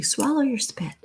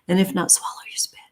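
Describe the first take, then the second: First: A lightly voiced mother, higher and softer; a hint of mama scolding thirsty kids, a touch higher; imitating mama. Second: Quick unvoiced whisper, half joking; whispered aside. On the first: Quoting her mama to thirsty kids, lightly voiced and soft. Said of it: "Like my mama used to say". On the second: Real, not acted. Whispering a cheeky tip to her viewers, quick and hushed. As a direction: slip it in as a hushed joke.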